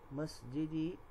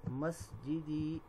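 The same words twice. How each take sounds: First: Said in the usual way. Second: مسجدی drawn out slowly, each syllable clear, ending in a long ی; slow model word. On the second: Shown as a demonstration. Teacher models مسجدی slowly for students, syllable by syllable. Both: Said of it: "یوں بول دیں".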